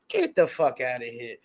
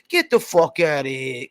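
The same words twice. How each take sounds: First: It is said in his normal voice. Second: It is said in a put-on Italian voice.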